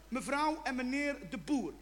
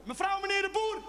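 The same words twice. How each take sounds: First: Said in the usual way. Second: Calling out. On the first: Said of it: "een leuke naam voor de kat". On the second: Shown as a demonstration. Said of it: "als je ze buiten gaat roepen".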